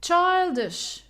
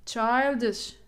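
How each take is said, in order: First: Put-on "Childish" with CHILD pitched high, ISH falling; high, emphatic CHILD-ish for "Childish"; stress on CHILD. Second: Put-on "childish" in usual pitch, CHILD carrying the stress; CHILD-ish, measured model of "childish" for learners; stress on first syllable. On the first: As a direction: punch the first syllable of "Childish". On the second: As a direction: repeat "childish" evenly, leaning on CHILD. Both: Shown as a demonstration. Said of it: "on the first syllable".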